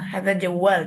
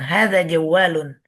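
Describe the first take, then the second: First: The last word ends on a bare consonant. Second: The last word ends with an added 'un' syllable. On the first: This is the everyday spoken form. The speaker calls it right. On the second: This is the careful form used when studying. The speaker calls it wrong. "Nggak perlu kita bilang jawalun"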